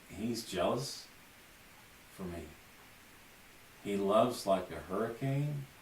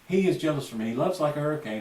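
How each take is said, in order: First: There is a clear pause between the phrases. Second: The phrases run together quickly with no pause. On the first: The listener has time to take in the meaning. The speaker calls it right. "Every time there's a rest" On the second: The meaning is lost in a hurry. The speaker calls it wrong. "There's nothing there. It's just a rushed, jumbled mess"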